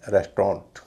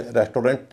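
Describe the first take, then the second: First: रेस्टोरेंट as rest-ront, middle vowel dropped; correct form. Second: रेस्टोरेंट as res-to-rent, with a clear o; wrong o sound. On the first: Teacher giving the preferred form, रेस्टोरेंट as rest-ront. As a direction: squeeze रेस्टोरेंट to two syllables, rest-ront. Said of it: "इसे कहेंगे". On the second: Teacher showing what not to say, रेस्टोरेंट as res-to-rent. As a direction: say a full o in the middle of रेस्टोरेंट. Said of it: "इसमें एयू का उच्चारण ओ नहीं होता". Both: Shown as a demonstration.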